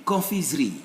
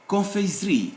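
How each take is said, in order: Both takes have the same delivery.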